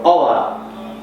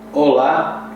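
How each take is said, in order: First: The O vowel is said sharply. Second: The O vowel is said softly. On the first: This is the Portuguese way. "in Portuguese you pronounce the, the O sharper" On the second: This is the Spanish way. "is in Spanish"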